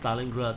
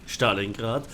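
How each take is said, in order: First: The name is pronounced the English way. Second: The name is pronounced the German way. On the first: "it's pronounced Stalingrad in English" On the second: "in German it's pronounced Stalingrad"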